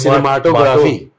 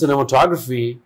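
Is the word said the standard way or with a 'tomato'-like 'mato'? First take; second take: tomato-like; standard. First: The middle sounds like 'mato' in 'tomato'. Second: The word has its usual standard pronunciation. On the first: "Tomato wala cinemato" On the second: "It wasn't cinematography"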